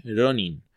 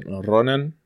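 First: "Ronin" with an I in the last syllable; correct Japanese pronunciation. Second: "Ronan" with an A in the last syllable; American pronunciation. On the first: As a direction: say "Ronin" ending clearly in -in. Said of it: "en realidad la palabra es". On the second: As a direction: say "Ronan" as English speakers mispronounce it. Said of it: "los gringos siempre dicen Ronan". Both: Shown as a demonstration.

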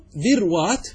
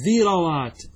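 First: ذروات said dhir-wat, ر silent, slower and higher; ذروات with no vowel on the ر, drawn out; dhirwat with sukun. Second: ذروات said dhi-ra-wat, fatha on the ر; dhirawat with fatha. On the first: Teacher shows the sukun plural to students, slowly. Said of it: "وهذا بالسكون جائز". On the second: Teacher shows the fatha plural to students, clearly. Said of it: "هذه لغة". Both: Shown as a demonstration.

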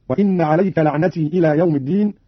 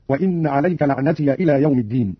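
First: Said in the usual way. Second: "لعنتي" as la'natiya; opened final ya. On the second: Shown as a demonstration. Teacher demonstrates Qalun's reading, "لعنتي" ending in -iya. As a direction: add a short a after the ya of "لعنتي". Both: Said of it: "فتح قالون الياء وصلا".

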